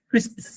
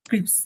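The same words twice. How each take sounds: First: ক্রিসপস with s before the p; British pronunciation. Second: ক্রিপস said with "ps" ending; American pronunciation. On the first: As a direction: say ক্রিসপস the British way, "sps" ending. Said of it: "ব্রিটিশটা এটাকে বলে". (British উচ্চারণে ক্রিসপস) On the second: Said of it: "হ্যাঁ, American.". (American উচ্চারণে ক্রিপস) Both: Shown as a demonstration.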